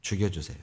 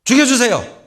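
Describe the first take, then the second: First: A low, soft, drooping 죽여주세요 that sinks at the end; low, deflated 죽여주세요; sulky plea. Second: A high, loud, strained 죽여주세요 falling at the end; shouted, desperate 죽여주세요; loud plea. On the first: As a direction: mutter 죽여주세요 like a sulking prophet. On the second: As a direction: cry out 죽여주세요 in exasperation. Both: Retold or imitated. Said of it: "박농쿨이 죽으니까".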